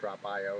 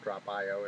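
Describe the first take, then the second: First: The letter after 'drop' sounds like 'eye'. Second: The letter after 'drop' sounds like 'eye'.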